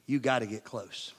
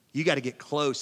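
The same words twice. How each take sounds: First: Hushed. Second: Said in the usual way. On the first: Shown as a demonstration. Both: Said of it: "In order to hear a whisper".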